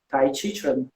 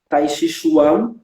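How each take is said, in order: First: The name is said the Chinese way. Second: The name is said the French way.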